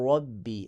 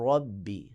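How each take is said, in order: No difference in how they are said.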